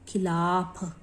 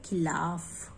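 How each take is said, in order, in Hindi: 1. अंतिम ध्वनि महाप्राण 'ph' है। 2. अंतिम ध्वनि 'f' है।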